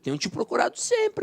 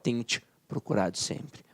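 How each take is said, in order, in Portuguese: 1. O 'te' se agrupa com a palavra seguinte. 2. O 'te' se agrupa com a palavra anterior. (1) "você dá uma força nesse T na sua fala" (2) "você não fala"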